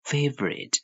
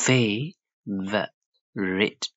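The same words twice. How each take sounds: First: Said in the usual way. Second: Very slow "fa - vo - rite"; syllable by syllable. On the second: Shown as a demonstration. Teacher breaks the word down, favorite in slow syllables. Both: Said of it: "Rate လို့ထွက်ပါတယ်".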